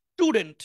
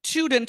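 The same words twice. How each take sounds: First: স্টুডেন্ট with hard retroflex ট; correct স্টুডেন্ট. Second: The mistaken স্টুডেন্ট; wrong স্টুডেন্ট. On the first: Teacher showing the right স্টুডেন্ট. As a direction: say স্টুডেন্ট with the Bangla ট sound. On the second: Teacher showing the wrong স্টুডেন্ট to avoid. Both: Shown as a demonstration. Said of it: "এরকম হবে না".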